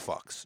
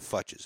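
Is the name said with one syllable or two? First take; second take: one; two. First: The name is said with one syllable. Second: The name is said with two syllables. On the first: The speaker calls it right. "it's Fux" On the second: The speaker calls it wrong. "It's not Futches"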